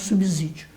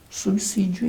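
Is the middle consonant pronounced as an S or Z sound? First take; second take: Z; S. First: The middle consonant is a buzzing z sound. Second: The middle consonant is a hissing s sound. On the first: The speaker calls it wrong. "e não" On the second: The speaker calls it right. "obrigatoriamente tem que ser pronunciada com subsídio"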